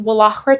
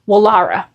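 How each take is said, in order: First: The middle of the name has a harsh consonant. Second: The middle of the name flows smoothly. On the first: The speaker calls it wrong. "that's not how you pronounce it" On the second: The speaker calls it right. "I also asked Google how to pronounce it"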